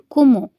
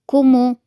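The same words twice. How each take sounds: First: Said in the usual way. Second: كومو punched out loud and clear; loud stressed repeat. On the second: Shown as a demonstration. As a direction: hit كومو loudly so they catch it. (كومو بصوت عالي ومضغوط)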